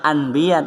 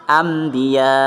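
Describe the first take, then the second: First: The nasal before the b sounds like n. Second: The nasal before the b sounds like m. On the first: The speaker calls it wrong. "bukan bahasanya anbiya" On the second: The speaker calls it right. "tapi anbiya"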